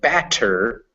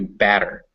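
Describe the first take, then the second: First: The middle consonant is a crisp T. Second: The middle consonant is a quick D-like tap. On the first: "So it goes from" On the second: "the T kind of becomes more like these vowels"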